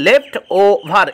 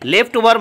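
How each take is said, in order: First: The syllables are said apart with breaks. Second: The syllables are joined into one smooth word.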